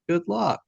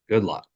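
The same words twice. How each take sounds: First: It sounds sincere and warm. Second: It sounds sarcastic and dismissive.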